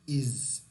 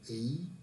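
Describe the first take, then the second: First: The word ends with a z sound. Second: The word ends without a z sound. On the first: The speaker calls it right. "So you see here the Z sound" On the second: The speaker calls it wrong.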